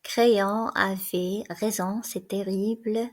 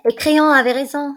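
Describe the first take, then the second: First: Slow, laboured repeating while writing; slow dictation. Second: A loud, raw burst of despair; anguished outcry. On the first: A narrator's reading. The guard plodding through Antigone's dictation, slow. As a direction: spell it out word by word as you write. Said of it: "qui peine sur sa dictée". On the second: Acted. Antigone crying out as she dictates her farewell letter. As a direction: cry the words out, near breaking.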